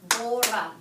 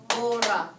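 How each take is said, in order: Both takes have the same delivery.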